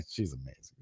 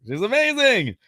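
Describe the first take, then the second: First: Said in the usual way. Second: Over-the-top high gush; high-pitched gushing. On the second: Pretend. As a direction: squeal it in a playful high voice. Repeats praise in high voice.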